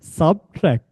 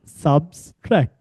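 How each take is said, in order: First: No extra s sound follows 'sub'. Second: An extra s sound follows 'sub'. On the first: The speaker calls it right. "It's subtract" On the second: The speaker calls it wrong. "It's not subtract"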